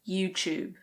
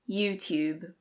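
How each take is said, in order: First: A British accent with a ch sound. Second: A British accent with a clear T sound. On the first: "So the T becomes a ch" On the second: "In British English, this is pronounced YouTube"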